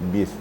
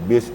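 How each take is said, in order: First: The lips touch lightly on the b. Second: The lips press hard on the b. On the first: The speaker calls it right. "tapi bis, dikit aja" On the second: The speaker calls it wrong. "jangan bis"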